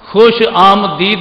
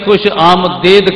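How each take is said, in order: First: The last syllable has a long 'ee' vowel. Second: The last syllable has an 'ay' vowel. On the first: The speaker calls it wrong. "खुश आमदीद नहीं" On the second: The speaker calls it right. "अपना तलफ़ुज़ दुरुस्त कर"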